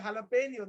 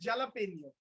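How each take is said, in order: First: The word begins with a breathy H sound. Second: The word begins with a J sound. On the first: This is how a Spanish speaker says it. The speaker calls it right. "they don't say jalapeno" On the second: This is how someone who does not know Spanish says it. The speaker calls it wrong. "if they don't know little bit Spanish, they say jalapeno"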